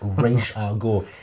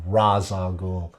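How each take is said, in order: First: The first word sounds like 'raish'. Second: The first word sounds like 'raz'. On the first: The speaker calls it right. "It's Arabic" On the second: The speaker calls it wrong. "He polluted the world with Raz Al Ghul"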